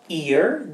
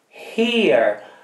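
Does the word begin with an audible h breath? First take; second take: no; yes. First: It starts with no breathy h sound. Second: It starts with a breathy h sound. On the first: The speaker calls it wrong. "not ear. This is ear" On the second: The speaker calls it right. "Quindi voi sentirete l'aspirazione"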